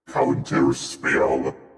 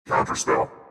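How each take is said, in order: First: The word is drawn out slowly and oddly. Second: The word is said at a normal pace. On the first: "you want me to make it fucked up?" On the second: "Say it normally"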